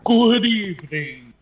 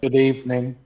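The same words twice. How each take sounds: First: It is said in a dramatic vampire voice. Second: It is said in a normal voice.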